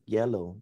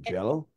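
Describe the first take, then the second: First: The word begins with a Y sound. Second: The word begins with a J sound. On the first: The speaker calls it right. "Sabi ko sa kanya, oh, look" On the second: The speaker calls it wrong. "yung Y nila nagiging J"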